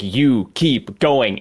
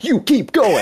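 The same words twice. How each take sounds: First: It is said at a slower pace. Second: It is said at a faster pace.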